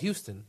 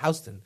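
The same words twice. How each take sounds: First: It is said the usual Texas way. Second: It is said the New York way. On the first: "it's spelled Houston" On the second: "we pronounce it Houston"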